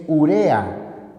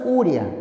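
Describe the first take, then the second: First: Urea slowly, every vowel full: u-re-a; careful correct urea; correct pronunciation. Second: Urea said as uria, the e sliding into an i glide; mispronounced urea as uria; wrong pronunciation. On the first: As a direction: spell out urea in three clean syllables, slowly. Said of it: "La palabra no es urea, es urea". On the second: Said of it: "no digas uria". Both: Shown as a demonstration.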